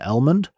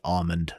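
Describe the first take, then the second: First: The L sound in the word is pronounced. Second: The L sound in the word is silent. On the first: The speaker calls it right. "I pronounce the L in almond" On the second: The speaker calls it wrong. "I refuse to pronounce it almond. That just sounds weird"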